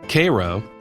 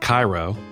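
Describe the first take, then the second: First: It is said in a local Southern way. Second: It is said in the standard way.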